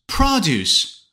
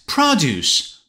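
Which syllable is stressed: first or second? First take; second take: first; first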